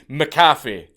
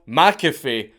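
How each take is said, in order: First: The name is said the Scottish way. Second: The name is said the American way. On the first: This is how the Scottish surname should sound. The speaker calls it right. "It's meant to be McAfee" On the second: This is how the name's bearer said it himself. The speaker calls it wrong. "not McAfee"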